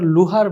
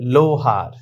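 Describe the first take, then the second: First: The first vowel is a high 'u' sound. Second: The first vowel is a mid 'o' sound. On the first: The speaker calls it wrong. "এটা কিন্তু আমরা লুহার বলি, তাহলে ভুল" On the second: The speaker calls it right. "বাংলায় ওকারের মতো উচ্চারণ হবে"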